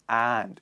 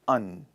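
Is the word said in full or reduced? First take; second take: full; reduced. First: The word is said in full, stressed. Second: The word is reduced to a weak 'un'. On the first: The speaker calls it wrong. "the pronunciation of and is not stressed" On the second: The speaker calls it right. "it is unstressed. So we pronounce it as un"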